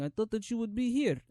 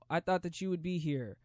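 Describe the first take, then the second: First: It is said in a Russian accent. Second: It is said in his regular accent.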